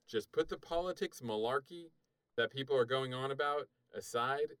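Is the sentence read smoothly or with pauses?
smoothly. It is read smoothly without pauses.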